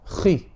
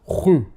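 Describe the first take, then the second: First: The syllable has slight heaviness, mouth kept neutral. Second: The syllable is very heavy and rounded toward u. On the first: The speaker calls it right. "you leave your mouth kind of neutral" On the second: The speaker calls it wrong. "But you don't do this. That's too much"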